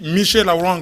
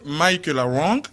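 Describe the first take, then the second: First: The name is pronounced with French sounds. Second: The name is pronounced with English sounds. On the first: "en français on dit" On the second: "en anglais c'est"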